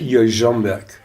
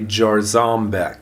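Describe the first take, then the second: First: The surname is said with a Polish pronunciation. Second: The surname is said with an American pronunciation. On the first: "but in Polish, it's Jarząbek" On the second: "if you're from anywhere in the United States, you're going to say Jarzombeck"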